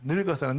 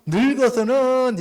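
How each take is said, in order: First: Said in the usual way. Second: 늙어서는 drawn out slowly, much higher and louder; emphatic stress. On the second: Shown as a demonstration. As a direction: lean hard on 늙어서는, stretching it out. (늙어서는을 느리고 높고 크게 힘주어) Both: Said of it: "이렇게 얘기하잖아요".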